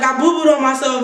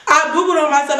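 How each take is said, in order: First: "I boo-booed on myself" with a laugh breaking through; giggling confession. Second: Said in the usual way. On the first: Retold or imitated. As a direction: admit it while giggling. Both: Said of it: "I was like".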